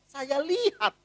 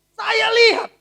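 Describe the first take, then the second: First: Said in the usual way. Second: High, loud eager watching; loud wide-eyed saya lihat; excited. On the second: Real, not acted. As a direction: lean in, thrilled to see.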